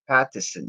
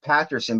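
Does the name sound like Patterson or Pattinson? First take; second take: Pattinson; Patterson. First: The middle sounds like 'tin' with an n. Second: The middle sounds like 'ter' with an r. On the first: The speaker calls it right. "It's Pat Pattison" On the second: The speaker calls it wrong. "sometimes I like to say it Patterson, but it's not Patterson"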